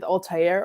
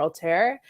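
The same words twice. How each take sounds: First: Altair as "al-TIE-air"; three-syllable pronunciation. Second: Altair as "al-TAIR"; "tair" pronunciation. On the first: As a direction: put a "tie" in the middle of Altair. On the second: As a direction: say Altair with no "tie", rhyming with "air". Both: Shown as a demonstration. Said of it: "different ways to pronounce it".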